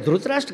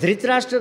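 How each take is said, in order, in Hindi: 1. 'dhr' के बाद का स्वर 'u' जैसा सुनाई देता है। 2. 'dhr' के बाद का स्वर 'i' जैसा सुनाई देता है। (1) "धृतराष्ट्र कहते हैं" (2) "धृतराष्ट्र नहीं कहते"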